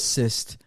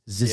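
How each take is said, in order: First: The word begins with an s sound. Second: The word begins with a strong z sound. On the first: "I guess it is zi- cyst" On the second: "I'm just putting a lot of emphasis on the z"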